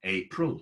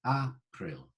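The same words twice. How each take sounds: First: Said in the usual way. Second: "April" with open AH, AH-pril; old pronunciation. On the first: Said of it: "April today". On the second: Shown as a demonstration. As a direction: say "April" as AH-prill, both syllables clear. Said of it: "it used to be pronounced A".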